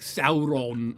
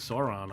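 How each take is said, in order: First: The name is said in a non-anglicized way. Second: The name is said in an anglicized way. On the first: "they'll be like Sauron" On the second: "I was just saying Sauron"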